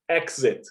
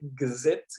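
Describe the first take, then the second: First: The x is voiceless, like 'ks'. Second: The x is voiced, like 'gz'. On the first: "como som de x" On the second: "com som de G Z"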